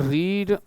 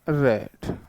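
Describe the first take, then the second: First: The vowel is long, like in 'reed'. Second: The vowel is short, like in 'red'. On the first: It is the present form of the verb. "बोलने में pronunciation इनका अलग है" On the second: It is the past form of the verb. "बोलने में pronunciation इनका अलग है"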